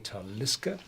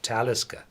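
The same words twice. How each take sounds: First: The stress is on the second syllable. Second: The stress is on the first syllable. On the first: It follows the Gaelic pattern. "Gaelic words, they are to ninety-nine percent pronounced on the second syllable. So if you pronounce it in the Gaelic way" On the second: It follows the Nordic pattern. "but this is a Nordic name, so you say"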